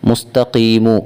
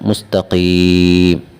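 First: The word ends with a vowel sound. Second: The word ends with a consonant sound. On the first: The reading continues past the word. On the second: The reading stops on this word.

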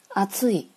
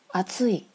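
The two takes are said the same way.

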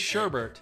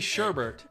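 First: The second syllable has an R sound. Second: The second syllable has an R sound.

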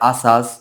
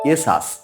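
First: Both vowels are open 'aa' sounds. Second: It starts with an 'e' vowel sound. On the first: The speaker calls it wrong. "অনেকে উচ্চারণ করে আসাস" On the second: The speaker calls it right. "সঠিক উচ্চারণ হবে এসাস"

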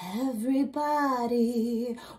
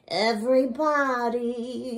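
First: The word sounds breathy, with extra air. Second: The word sounds nasal, with a closed nose. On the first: "came in with more excess air" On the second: "more the way that Kristin is going for it. Nose closed"

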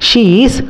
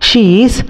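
No difference in how they are said.

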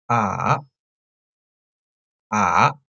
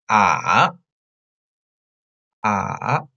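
No difference in how they are said.

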